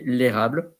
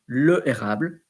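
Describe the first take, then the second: First: The article vowel is dropped and joined to the noun. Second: The article vowel is said separately before the noun. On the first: The speaker calls it right. "you say l'érable for fluidity" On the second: The speaker calls it wrong. "You don't say le érable"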